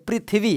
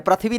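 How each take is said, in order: First: पृथ्वी said as "prit-hvi", with a clear "pri" sound; correct pronunciation. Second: पृथ्वी said as "prat-hvi", with a short a-sound after the r; the way many people say पृथ्वी: "prat-hvi"; common wrong pronunciation. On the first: Teacher correcting students, careful "prit-hvi" for पृथ्वी. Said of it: "प्री बोलते हैं उसको". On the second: Teacher showing students the wrong "prat-hvi" for पृथ्वी. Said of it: "पृथ्वी बहुत सारे लोग बोलते हैं". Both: Shown as a demonstration.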